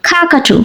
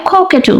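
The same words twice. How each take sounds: First: "কাকাটু" said American, starting on open "ka"; American pronunciation. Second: "কোকেটু" said British, starting on rounded "ko"; British pronunciation. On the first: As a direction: open the first vowel of "কাকাটু" to ah, American style. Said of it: "American অ্যাকসেন্টে বলা হয়". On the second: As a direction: round the first vowel of "কোকেটু" to oh, British style. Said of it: "British অ্যাকসেন্টে বলা হয়". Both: Shown as a demonstration.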